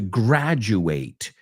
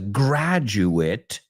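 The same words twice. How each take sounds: First: It is pronounced in its verb form. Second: It is pronounced in its noun form. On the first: It is used as a verb. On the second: It is used as a noun.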